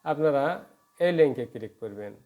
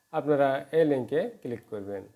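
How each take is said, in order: Both takes have the same delivery.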